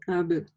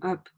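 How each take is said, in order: First: The final consonant is a voiced b. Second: The final consonant is a voiceless p. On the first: The speaker calls it right. "но есть Б" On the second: The speaker calls it wrong. "не говорим АБ, то есть не оглушаем, как буква П"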